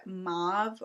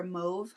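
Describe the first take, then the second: First: "mauve" with an open "ah" vowel; alternative pronunciation. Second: "mauve" with a long "oh" vowel; alternative pronunciation. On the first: Vlogger offering one way to say a shade name, "mauve" as "mahv". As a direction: say "mauve" to rhyme with "suave". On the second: Vlogger offering the other way to say a shade name, "mauve" as "mohv". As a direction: say "mauve" to rhyme with "stove". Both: Shown as a demonstration. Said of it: "however you say it".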